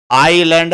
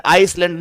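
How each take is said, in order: First: "आइलैंड" with no S sound; silent S. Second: "आइसलैंड" with an audible S after "आइ"; sounded S. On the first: Teacher giving students the correct reading of island, S silent. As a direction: say "आइलैंड", going straight from "आइ" to "लैंड". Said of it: "इसमें एस होता है silent". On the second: Teacher showing students the wrong reading of island, S sounded. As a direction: say "आइसलैंड", pronouncing the silent S. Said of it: "नहीं होता ये". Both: Shown as a demonstration.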